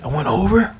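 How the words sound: The voice is breathy, with lots of air. The speaker seems concerned and sorry. The speaker calls it right. "You put the air in your voice when you're about to do it"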